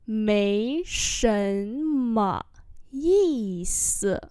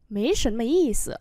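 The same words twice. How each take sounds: First: Very slow, syllable by syllable; slow model reading. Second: Said in the usual way. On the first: Shown as a demonstration. Teacher modelling Chinese phrases for learners, slow and drawn-out. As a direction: stretch each syllable out for learners.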